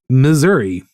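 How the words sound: It is said with an urban Missouri pronunciation. The speaker lives near a city. "If they are from one of the city areas, one of the urban areas, they will say"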